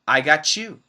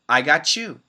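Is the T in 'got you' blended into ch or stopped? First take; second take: blended; blended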